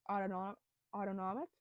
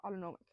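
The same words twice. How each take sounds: First: "autonomic" tried out haltingly, rising like a question; unsure pronunciation. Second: "Autonomic" said firmly once, falling at the end; settled pronunciation. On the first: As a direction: stumble over "Autono-, autonomic?" and ask it. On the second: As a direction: land "Autonomic" with a confident fall. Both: Real, not acted. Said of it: "I'm trying to get the word right".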